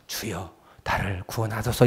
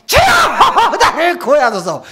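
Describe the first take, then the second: First: Quiet, low "구원하소서" murmured; a weak, hushed call; soft low plea. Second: High, loud "구원하소서" shouted; loud cry. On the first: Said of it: "이렇게 해서". (작고 낮게 "구원하소서") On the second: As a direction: call out boldly. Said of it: "일 번이요, 이 번이요". (크게 외치는 "구원하소서") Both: Shown as a demonstration.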